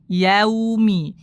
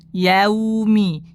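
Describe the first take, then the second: No difference in how they are said.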